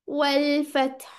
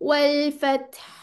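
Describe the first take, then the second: Both takes have the same delivery.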